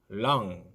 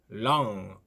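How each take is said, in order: First: The word ends on the ng sound. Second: The word ends on the ng sound.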